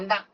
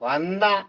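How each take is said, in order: First: The word is said short and quick. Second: The word is drawn out and lengthened. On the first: "குறிக்கு சொன்ன" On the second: "கொஞ்சம் நெடிலா சொல்றோம் பாத்தீங்களா"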